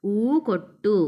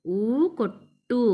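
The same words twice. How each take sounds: First: ఊ కొట్టు with the ట్టు pressed hard and doubled; stressed doubled t. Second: ఊ కొట్టు drawn out slowly, ట్టు held and pressed; slow stressed doubled t. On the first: Teacher showing children the stress: కొట్టు with a heavy double ట్ట. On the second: Teacher repeating slowly for children: కొట్టు with a pressed ట్ట. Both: Shown as a demonstration. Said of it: "ఒత్తి పలకాలి ఇక్కడ".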